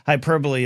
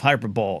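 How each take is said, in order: First: The word has its usual stress. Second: The word is stressed on an odd syllable. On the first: The speaker calls it right. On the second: The speaker calls it wrong.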